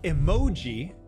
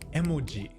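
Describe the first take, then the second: First: One syllable is stressed, longer and louder. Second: Every syllable has the same length and weight. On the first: The speaker calls it wrong. "it's not emoji" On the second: The speaker calls it right. "each kana being the same length"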